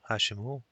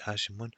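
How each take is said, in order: First: Hashim who said as one name, "Hashimu"; ending in plain -u. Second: Hashimun with an n closing the name; wrong -un ending. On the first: Teacher models calling Hashim, ending in -u. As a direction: end Hashim on an "oo" sound, no n. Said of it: "we don't say Hashimun". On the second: Teacher shows learners what not to say, ending in -un. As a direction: add nunation, "Hashim-un". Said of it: "because of the ya". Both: Shown as a demonstration.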